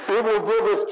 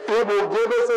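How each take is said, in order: Both takes have the same delivery.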